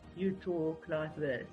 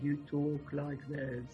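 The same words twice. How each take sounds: First: The voice is pitched higher than usual. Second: The voice is pitched low and deep. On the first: This is how one speaks at home. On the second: This is how to speak to a boy.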